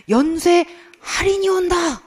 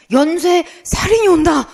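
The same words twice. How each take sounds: First: High, slow commercial announcer; TV ad imitation. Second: High, loud ad voice with "살인이" starting on an s; misheard ad imitation. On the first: Teacher recalling an ad that startled her, high announcer imitation. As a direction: proclaim it like a sale advert. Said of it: "이렇게 광고를 하는 거예요". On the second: Teacher revealing what she misheard, loud ad voice with s in "살인이". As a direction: proclaim "살인이" with a hissed s instead of h. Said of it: "제 귀에는 얘가 뭐로 들렸냐면".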